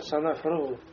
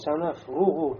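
First: The vowel after r has unrounded lips. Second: The vowel after r has fully rounded lips. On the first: The speaker calls it wrong. "губы как-то не сделаны, получится" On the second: The speaker calls it right. "Ру произносим с доммой"

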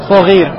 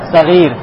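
First: The first vowel is a clear o sound. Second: The first vowel is between a and o. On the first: The speaker calls it wrong. "Не говоришь согир" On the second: The speaker calls it right. "не А, но и не О, а что-то среднее"

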